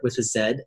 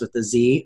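First: The letter is said the Australian way, zed. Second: The letter is said the American way, zee.

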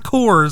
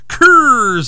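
First: The word is said in a plain standard way. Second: The word is said in an imitated quirky way. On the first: "like it's supposed to be said" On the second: "I like the way he pronounces that"

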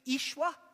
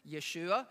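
First: The name begins with an 'ish' sound. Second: The name begins with a 'yeh' sound. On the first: "the way Aramaic people spoke, it was pronounced Ishwa" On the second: "people think it's pronounced Yeshua"

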